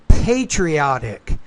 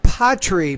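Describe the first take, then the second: First: The first syllable has the 'pay' vowel sound. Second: The first syllable lacks the 'pay' vowel sound. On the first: The speaker calls it right. "but pay" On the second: The speaker calls it wrong. "not patri"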